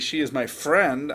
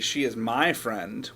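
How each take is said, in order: First: The word "friend" carries the emphasis. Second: The word "my" carries the emphasis. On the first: That person is a friend, not something else. "I'm telling you that that person's my friend" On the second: She is not your friend. "what I mean is she's not your friend"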